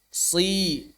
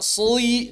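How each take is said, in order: First: The s is moderately heavy, somewhat reduced. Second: The s is overly heavy, sounding like sui. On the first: The speaker calls it right. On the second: The speaker calls it wrong.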